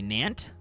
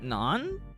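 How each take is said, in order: First: The word ends with a hard t sound. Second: The word ends on the vowel, no consonant. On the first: "Hard T" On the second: "Is that more correct? Close"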